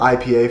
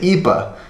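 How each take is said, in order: First: The letters are spoken with English letter names. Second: The letters are spoken with Swedish letter names. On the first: This is how Americans say it. "in America, we say" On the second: This is how Swedes say it. "in Sweden, they say"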